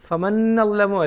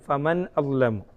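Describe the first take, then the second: First: The n runs straight into the next vowel. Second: A clear glottal stop separates the two words. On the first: The speaker calls it wrong. "നല്ലമു നല്ലമു എന്നാണ് കേൾക്കുന്നത്" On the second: The speaker calls it right. "ഹംസ വ്യക്തമാക്കണം"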